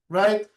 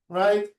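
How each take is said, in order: No difference in how they are said.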